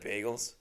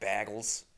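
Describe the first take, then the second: First: It is said in a plain standard accent. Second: It is said in a Massachusetts accent.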